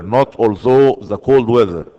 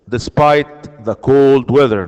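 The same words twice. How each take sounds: First: Although stressed as the wrong choice; stressing the wrong form. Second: Despite the cold weather said slowly, cold stressed; careful correct version. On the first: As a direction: point out although as the mistake. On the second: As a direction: model the right phrase deliberately. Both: Shown as a demonstration.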